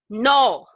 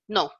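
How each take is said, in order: First: It sounds strong and forceful. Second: It sounds plain and matter-of-fact.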